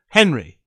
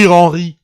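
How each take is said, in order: First: The name is said with an English accent. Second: The name is said with a French accent. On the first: The speaker calls it right. "just say Henry" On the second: The speaker calls it wrong. "don't say Henri with fucking French accent"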